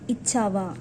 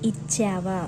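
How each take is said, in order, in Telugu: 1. ఈ అచ్చు 'cap' లోని a లాగా లేదు. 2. ఈ అచ్చు 'cap' లోని a లాగా వినిపిస్తుంది. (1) "It is not ఇచ్చావా" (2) "it is like ఇచ్చావా, cha"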